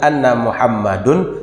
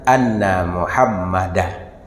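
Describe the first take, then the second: First: The name ends with an -un sound. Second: The name ends with an -an sound. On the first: The speaker calls it wrong. "geli-geli telinga dia" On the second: The speaker calls it right. "secara nahwu yang benar Muhammadan"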